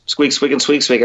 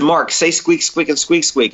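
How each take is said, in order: First: Lightly voiced squeaking, like a squirrel; a hint of squirrel chatter; mild squirrel squeaks. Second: Said in the usual way. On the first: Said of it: "And he goes". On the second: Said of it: "I said".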